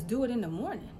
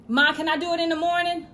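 First: Imitated parent echoing in disbelief; mock-incredulous repeat at everyday pitch. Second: Put-on higher, quick kid voice; loud, imitated child's request; pleading child. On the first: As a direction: throw the words back as a challenge. Parent repeats child's words incredulously. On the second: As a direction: ask mom fast and high, like a kid. Voices a child asking mother.

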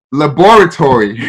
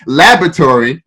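First: "laboratory" as luh-BOR-uh-tor-ee, every syllable sounded; accented pronunciation. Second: "Laboratory" as LAB-ruh-tor-ee, middle A dropped; American pronunciation. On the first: Showing his Ghanaian way, "laboratory" with every syllable emphasized. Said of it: "how we emphasize every syllable". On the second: Giving the classmates' version, "Laboratory" as LAB-ruh-tor-ee. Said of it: "The other kids pronounced it". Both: Shown as a demonstration.

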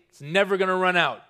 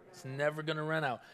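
First: Said in the usual way. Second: Hushed congregation-style echo; quiet echo. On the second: Shown as a demonstration. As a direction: let it fall away gently.

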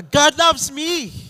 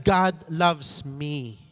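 First: Loud, high, slow declaration; with conviction. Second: Said in the usual way. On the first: Shown as a demonstration. Preacher leading the congregation, loud and convinced. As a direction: proclaim it with full conviction. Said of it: "Say it with conviction". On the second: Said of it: "Can you say that to yourself?".

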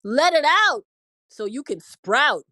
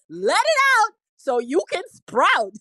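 First: Said in the usual way. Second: High, loud, gleeful rhyme; amused holler between bursts of laughter; tickled repeat. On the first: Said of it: "How you like that one?". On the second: Real, not acted. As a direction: belt out the rhyme, cracking yourself up. Repeats own rhyme, cracking up.

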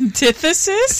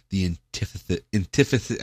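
First: Antithesis said fully as an-TITH-e-sis, laughing; correct pronunciation. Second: Antithesis mispronounced as "antifus"; stumbled pronunciation. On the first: Shown as a demonstration. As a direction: say Antithesis clearly, all syllables. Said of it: "Thank you". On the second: Real, not acted. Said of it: "I can't even say the word".

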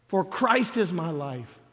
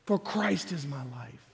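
First: Slow, weighty, each word landed; slow emphatic declaration. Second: Lower, softer repeat of "For Christ is my life."; soft echo. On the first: Preacher declaring to the congregation, slow and weighty. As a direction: plant "For Christ is my life." firmly and slowly. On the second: Preacher echoing the line to himself, softly. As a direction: let it fall back, quiet and inward. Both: Shown as a demonstration.

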